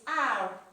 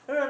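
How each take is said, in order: First: The letter name is said with English sounds. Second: The letter name is said with Ewe sounds. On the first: "this one is R in English" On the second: "but we call it R"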